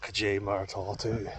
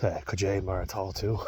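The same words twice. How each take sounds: First: Kajay Maratatu said again, stress on KAJAY, softer; Kajay Maratatu with a clear push on Kajay; Donegal Irish greeting. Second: Kajay Maratatu said as kuh-JAY mar-a-TAH-too, hesitant first try; Kajay Maratatu tried once, tentatively; Donegal Irish greeting. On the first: Repeating the Donegal greeting for viewers, Kajay Maratatu. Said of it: "Donegal Irish". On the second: Showing viewers the Donegal Irish greeting, Kajay Maratatu. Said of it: "that's how you guys say". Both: Shown as a demonstration.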